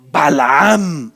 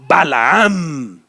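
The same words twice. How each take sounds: The two takes are said the same way.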